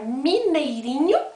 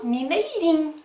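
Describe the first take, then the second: First: The full ending -inho is pronounced. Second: The ending is clipped to -im, Minas style.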